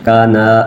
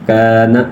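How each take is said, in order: First: The first vowel is cut short. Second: The first vowel is drawn out long. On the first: The speaker calls it wrong. "बगैर खींचे काना गलत है" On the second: The speaker calls it right. "एक अलिफ खींचेंगे"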